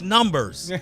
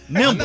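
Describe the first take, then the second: First: The word sounds like 'numbers', with an r. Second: The word sounds like 'nimbus', with no r. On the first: The speaker calls it right. "It's numbers" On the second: The speaker calls it wrong. "don't say Nimbus. Nimbus ain't a word. N I M B A S"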